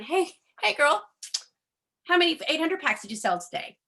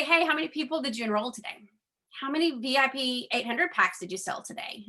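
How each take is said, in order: First: Higher, brighter hammed-up hey girl, pressing fast; mock pushy caller. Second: Pushy upline quote. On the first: She imagines phoning her sponsor, mock pushy caller. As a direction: parody an overeager upline calling her sponsor. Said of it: "calling Mario going". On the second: Retold or imitated. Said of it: "that would say".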